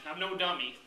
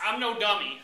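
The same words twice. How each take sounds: First: Said in the usual way. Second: Emphatic. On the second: Acted.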